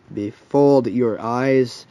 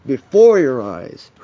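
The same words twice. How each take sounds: First: "befooled" said slowly and tentatively; "befooled" drawn out, unsure it is right; unsure pronunciation. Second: "Before" punched louder and drawn out; emphatic self-correction. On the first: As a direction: try out "befooled" as an uncertain word. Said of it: "I think that's how you pronounce it". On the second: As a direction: correct yourself, leaning hard on "Before". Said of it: "That's how it goes". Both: Real, not acted.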